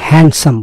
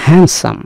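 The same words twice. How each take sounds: First: A d sound is heard in the middle. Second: No d sound is heard in the middle. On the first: The speaker calls it wrong. "এটা হ্যান্ডসাম বলবেন না" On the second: The speaker calls it right. "এখানে ডি এর উচ্চারণ হয় না"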